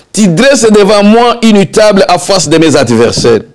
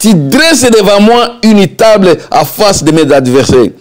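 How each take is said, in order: Both takes have the same delivery.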